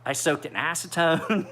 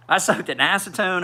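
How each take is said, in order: First: Said in the usual way. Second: Laughing at his own desperate fix. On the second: Real, not acted. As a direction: repeat it laughing, higher and louder. Repeats it with a laugh.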